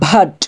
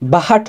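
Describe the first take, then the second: First: The b and h blend into one sound. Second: The b and h are split by a vowel. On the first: The speaker calls it right. "একসাথে বা এবং হায়ের মিশ্রণটা একসাথে উচ্চারণ হবে" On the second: The speaker calls it wrong. "বাহাট হবে না"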